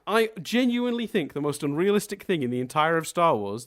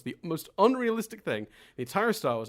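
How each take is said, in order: First: Said in the usual way. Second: Leaning on unrealistic, said again; repeated for emphasis. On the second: Shown as a demonstration. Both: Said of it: "I'm gonna repeat it for emphasis".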